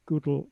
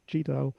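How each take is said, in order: First: The name begins with a 'goo' sound. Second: The name begins with a 'gee' sound. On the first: The speaker calls it right. "he pronounced Gödel" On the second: The speaker calls it wrong. "not GDAL"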